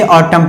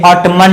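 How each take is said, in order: First: ऑटम with no N at the end; silent N. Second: ऑटमन with the final N said; wrong sounded N. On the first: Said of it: "इसे ऑटम पढ़ते हैं". (ऑटम, एन मौन) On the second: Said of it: "ये ऑटमन नहीं है". (ऑटमन, एन बोलकर (गलत)) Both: Shown as a demonstration.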